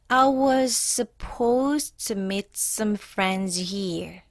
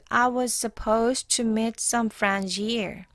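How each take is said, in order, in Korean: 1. 이 문장은 더 느리게 읽었어요. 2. 이 문장은 보통 속도로 읽었어요.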